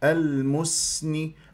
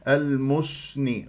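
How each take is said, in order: First: The lips relax before the s. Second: The lips stay rounded into the s. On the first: The speaker calls it right. "أرجع بالشفاه للوضع الطبيعي" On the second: The speaker calls it wrong. "غلط"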